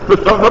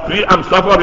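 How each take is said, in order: First: Said in the usual way. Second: أم سفر with am- instead of al-; Himyar dialect article. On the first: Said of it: "يعني في الإيه؟". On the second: Shown as a demonstration. Teacher decodes the dialect, am- heard in أم سفر. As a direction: say "am-safar" for as-safar in أم سفر. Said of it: "نطق الألف لام ألف ميم".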